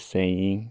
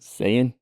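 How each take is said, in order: First: The final g sound is pronounced. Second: The final g sound is dropped. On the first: "instead of saying" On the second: "they'll drop the G"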